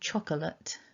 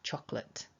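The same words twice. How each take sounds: First: The word is said with three full syllables. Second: The word is said with only two syllables. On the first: "the word chocolate" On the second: "is often just pronounced chocolate"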